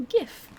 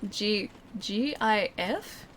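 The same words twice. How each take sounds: First: "gif" with a hard g, up high. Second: "G I F" letter by letter, slow; spelled-out GIF. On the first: Telling chat the hard-g "gif", pitched up. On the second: Explaining to chat GIF as "G I F", slowly. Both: Shown as a demonstration. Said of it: "so it's pronounced".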